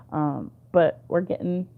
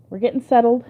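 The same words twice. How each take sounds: First: Said in the usual way. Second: Squeaky laugh while tickled; being tickled. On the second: Real, not acted. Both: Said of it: "oh, he's tickling me so bad".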